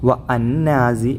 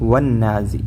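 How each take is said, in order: First: The 'wa' is kept separate from the word. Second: The 'wa' runs straight into the doubled n. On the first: The speaker calls it wrong. "ഒരിക്കലും വ അന്നാസി എന്ന് ഉച്ചരിക്കരുത്" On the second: The speaker calls it right. "വന്നാസി എന്ന് തന്നെ ഉച്ചരിക്കേണ്ടത്"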